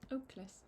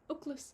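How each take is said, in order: First: It is said slowly with both words distinct. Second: It is said fast, running into one word.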